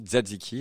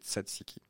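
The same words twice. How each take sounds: First: The word is said with a z sound. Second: The word is said without a z sound. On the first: The speaker calls it wrong. "on fait un Z alors qu'il n'y a pas de Z" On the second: The speaker calls it right. "alors que c'est Tzatziki"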